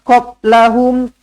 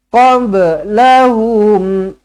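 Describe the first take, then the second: First: The b is held flat without a bounce. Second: The b is released with a small bounce. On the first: The speaker calls it wrong. "Tak nak qablahum" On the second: The speaker calls it right. "Lantunkan qalqalah sughra"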